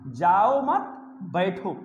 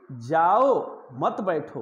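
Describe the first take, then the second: First: जाओ मत run together, pause, then बैठो; slowly group जाओ मत as one, बैठो apart and lower; pause after मत. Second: Drawn-out जाओ, pause, then मत बैठो together; pause after जाओ. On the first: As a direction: break the phrase after मत, letting बैठो drop. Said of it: "जाओ मत एक में है, अब बैठना अलग है". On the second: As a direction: slowly set जाओ apart from a lower मत बैठो. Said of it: "अलग है और "मत बैठो" अलग है". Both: Shown as a demonstration.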